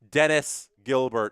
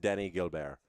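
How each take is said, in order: First: It is said in a plain English accent. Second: It is said in a French-Canadian accent.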